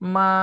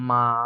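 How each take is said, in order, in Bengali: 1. এটি প্রথম টোনে বলা হয়েছে। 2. এটি তৃতীয় টোনে বলা হয়েছে।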